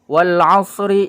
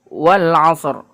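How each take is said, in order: First: The final consonant carries a short vowel. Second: It ends on the consonant with no final vowel. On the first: The reading continues into the next verse. "huruf ra yang fathah ini tetap dibaca" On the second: The reading stops at the end of the verse. "Ra-nya tetap disentuh, tapi fathahnya tidak dibaca"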